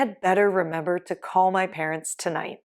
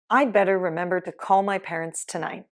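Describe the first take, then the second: First: The word 'had' is said in full. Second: The word 'had' is shortened to a 'd' sound.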